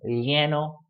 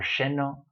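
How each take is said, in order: First: The word begins with an l-plus-y sound. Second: The word begins with an sh-like sound. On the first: This is a rare regional pronunciation. "will pronounce it lla ... an L Y sound" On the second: This is how speakers from Argentina and Uruguay say it. "it's going to sound like zh or sh"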